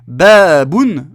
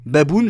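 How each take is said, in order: First: The first vowel is long. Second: The first vowel is short. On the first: The word is understood. The speaker calls it right. "je comprends" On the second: The word is not understood. The speaker calls it wrong. "je comprends pas"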